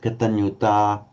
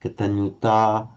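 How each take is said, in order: First: The final vowel is a long ah. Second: The final vowel is a long ah.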